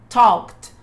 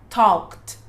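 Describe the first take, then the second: No difference in how they are said.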